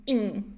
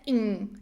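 First: The ending is said with a nasal n. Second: The ending is said with a nasal n.

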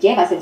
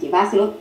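First: The stress is on the first syllable. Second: The stress is on the second syllable. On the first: "la tilde no sería en llévaselo" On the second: "sino en lleváselo, el énfasis sería en va"

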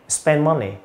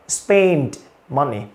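First: The d sound in spend is dropped in fast speech. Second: The d sound in spend is clearly released. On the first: "Nhưng đọc nhanh hơn" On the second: "Âm đờ bật ra rất rõ"

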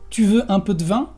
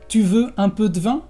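First: The e in de is dropped, giving dvin. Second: The same.

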